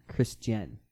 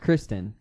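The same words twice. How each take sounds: First: "Chris Jen" as two clear parts; "Chris Jen", KRISS-jen rather than KRIS-ten; Chrisjen pronunciation. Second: "Kristen" with a T in the middle; "Kristen", no J sound at all; Kristen pronunciation. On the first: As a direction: say "Chris Jen" with a J starting the second part. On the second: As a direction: say "Kristen" like the common name, KRIS-ten. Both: Shown as a demonstration. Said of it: "Not Kristen. Chris Jen".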